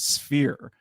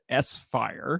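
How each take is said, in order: First: It is said as one word, sphere. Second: It is said as the letter S, then fire. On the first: "the intended pronunciation is sphere" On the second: "always called it S-Fire"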